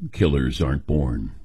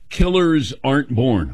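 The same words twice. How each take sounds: First: It is said in a dramatic announcer voice. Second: It is said in a normal speaking voice.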